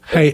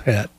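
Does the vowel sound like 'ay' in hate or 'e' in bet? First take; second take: ay; e. First: The vowel is long, like in 'hate'. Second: The vowel is short, like in 'bet'. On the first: This is the speaker's own pronunciation. "the way I say it" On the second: Another person pronounces it this way. "He says het"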